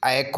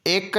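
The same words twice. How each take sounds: First: एक said as a-ek; open vowel. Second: एक said as ek; plain e sound. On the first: Teacher giving the second form, एक as a-ek. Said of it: "बल्कि एक होगा". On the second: Teacher naming the first form, एक as ek. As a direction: keep एक a pure e. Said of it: "नहीं बल्कि". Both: Shown as a demonstration.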